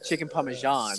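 The phrase is said with an odd, affected pronunciation. The speaker sounds like he thinks he is better than others. The speaker calls it wrong. "he did say it in a weird way"

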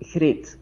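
The first sound is said the general Flemish way. This is how most people in Flanders say it. "in Flanders, people would say Grit"

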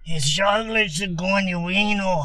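It is said like an Italian mobster.

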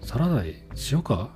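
It sounds sarcastic and mean.

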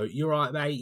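It is said in a London accent.

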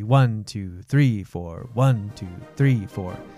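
The stress falls on one and three.

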